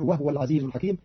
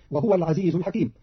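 First: وهو said "wahwa", no vowel after h; silent-vowel ha. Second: Said in the usual way. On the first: Shown as a demonstration. Teacher showing Qalun's reading, وهو said "wahwa". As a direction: say وهو as "wahwa", not "wahuwa". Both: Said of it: "بإسكان الهاء".

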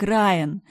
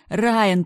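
First: Loud panicked call of the name Райан. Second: Райан shouted even higher and louder, falling; louder call. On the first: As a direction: shout Райан to be heard. Calling name twice. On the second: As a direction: scream Райан at full voice. Calling name louder. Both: A narrator's reading.

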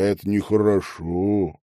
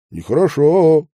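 First: Said in the usual way. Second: Нехорошо said higher and louder, reproachful; Нехорошо as a reproachful finishing echo. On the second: A narrator's reading. Medников echoing Iliushin, reproachful нехорошо. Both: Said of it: "укоризненно закончил он".

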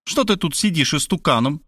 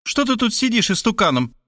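First: Mildly stern mother, slightly raised pitch; a touch of menace, voice a little higher; stern question. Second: High-pitched scolding repeat of the question; insistent, pitched-up reproach; insulting nag. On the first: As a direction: ask it as a restrained reproach. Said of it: "грозно поинтересовалась она". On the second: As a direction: nag him in a high mother's voice. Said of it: "уснастив его оскорбительными деталями". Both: A narrator's reading.

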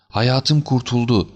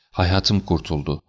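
First: High, drawn-out cry of relief; joyful cry. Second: Slow, understated cry of relief; restrained joyful cry. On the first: Client overjoyed at getting the jewels back, rising joyful cry. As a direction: raise it into a slow, elated exclamation. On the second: Relieved client clutching the recovered piece, restrained joyful cry. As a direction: let mild joy out slowly, at ordinary volume. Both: A narrator's reading. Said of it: "sevinçten çığlık atarak".

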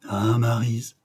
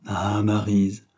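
First: Melancholy sigh. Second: "Ah, Maryse" stretched out slowly, lingering on "Maryse"; slow drawn-out sigh. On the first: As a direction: sigh the name out, lightly melancholy. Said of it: "soupira mélancoliquement le prince". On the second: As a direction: let the name linger, slow and wistful. Prince repeats the sigh, drawn out. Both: A narrator's reading.

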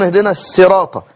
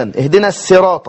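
First: الصراط with a light س; قراءة السين; Seen reading. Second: الصراط said as السراط with س; نطق الصاد سينا; Seen reading. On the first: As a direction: say الصراط as سراط. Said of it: "يجعلون الصاد سينا". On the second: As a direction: start الصراط with a clean س. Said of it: "سينا". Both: Shown as a demonstration.

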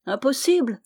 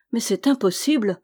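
First: Higher, questioning echo; mildly incredulous repeat; disbelieving echo. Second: Mildly disheartened protest; a touch of discouragement; discouraged. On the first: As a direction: throw the word back in doubt. Hunter echoes the word back, disputing it. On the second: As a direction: protest as if giving up. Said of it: "ajouta-t-il avec découragement". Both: A narrator's reading.

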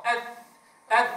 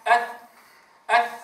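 First: أث with the tongue tip only slightly out; correct pronunciation. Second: أث with the tongue pushed too far out; wrong pronunciation. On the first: Teacher models the correct أث for students. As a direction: show the correct light أث. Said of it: "مجرد خروج قليل". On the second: Teacher imitates a common error on أث, tongue too far out. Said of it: "فالبعض ينطقه هكذا". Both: Shown as a demonstration.

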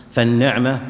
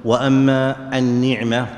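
First: فالنعمة with an open a after the n, na'ma; fatha on the nun. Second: النعمة with an i after the n, ni'ma; kasra on the nun. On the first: Teacher shows students the word فالنعمة with fatha. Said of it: "بفتح النون". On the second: Teacher contrasts for students النعمة with kasra. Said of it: "بكسر النون". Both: Shown as a demonstration.

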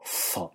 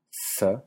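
First: S enfática, con la lengua retraída. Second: S, una s normal y limpia. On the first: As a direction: di la S enfática, lengua hacia atrás. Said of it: "y una enfática". (S velarizada) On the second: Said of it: "una normal". (S sin enfatizar) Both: Shown as a demonstration.

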